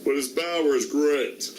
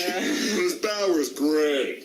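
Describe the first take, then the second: First: Plain. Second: Slow, dry sarcastic read. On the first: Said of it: "The one impression I can still do". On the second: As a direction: drag it out sarcastically. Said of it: "It's not really sarcastic". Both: Acted.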